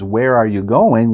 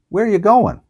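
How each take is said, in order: First: It is said slowly as four full words. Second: It is said quickly in three parts, 'where ya'. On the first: "saying that slowly, four words" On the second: "just kind of three parts"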